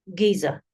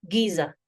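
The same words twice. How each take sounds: No difference in how they are said.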